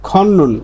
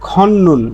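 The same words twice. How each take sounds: No difference in how they are said.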